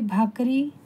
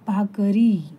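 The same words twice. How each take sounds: First: The final ri vowel is short. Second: The final ri vowel is drawn out long. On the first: The speaker calls it wrong. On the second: The speaker calls it right.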